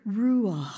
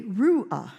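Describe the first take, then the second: First: "ruah" as ru-AH, ending on a long breath; last-syllable stress, breathed. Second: "ruah" stressed on the first syllable, RU-ah. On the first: Preacher showing the Hebrew, "ruah" breathed out as ru-AH. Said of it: "it's almost like a breathing". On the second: Preacher showing the everyday saying, "ruah" as RU-ah. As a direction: hit the start of "ruah", let the end drop. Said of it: "So we would say". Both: Shown as a demonstration.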